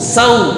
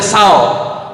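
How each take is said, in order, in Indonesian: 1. Diftong meluncur jelas ke bunyi 'u'. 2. Diftong berakhir dengan bunyi 'aw' biasa. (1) "condongkan ke huruf u sau" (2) "tidak boleh saw"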